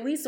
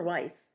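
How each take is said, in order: First: Weiss said with a long ee, "Weese"; first pronunciation option. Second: Weiss said with a long i, "Wice"; second pronunciation option. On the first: Co-host unsure of an actress's surname, Weiss pronounced "Weese". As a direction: say "Weiss" to rhyme with "fleece". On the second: Co-host offering the other surname option, Weiss pronounced "Wice". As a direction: say "Weiss" to rhyme with "mice". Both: Shown as a demonstration. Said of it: "or is it Weiss or Weiss".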